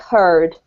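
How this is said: The word is said with an R sound.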